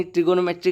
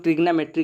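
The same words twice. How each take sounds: First: ट्रिगोनोमेट्री with a clear "go-no" in the middle; full pronunciation. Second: ट्रिग्नोमेट्री squeezed to "trig-no", dropping a vowel; shortened variant pronunciation. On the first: Teacher naming the maths topic, full pronunciation of ट्रिगोनोमेट्री. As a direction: say ट्रिगोनोमेट्री with every syllable, tri-go-no-me-try. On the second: Teacher quoting how some people say it, shortened ट्रिग्नोमेट्री. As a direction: say ट्रिग्नोमेट्री as tri-gno-me-try, one syllable fewer. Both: Shown as a demonstration. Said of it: "कुछ लोग ट्रिग्नोमेट्री कहते हैं".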